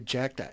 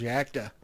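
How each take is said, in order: First: The word begins with a 'j' sound. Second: The word begins without a 'j' sound. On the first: The speaker calls it wrong. "when I say I see a J, I think ja ja the ja sound" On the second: The speaker calls it right. "whoever told me that is correct"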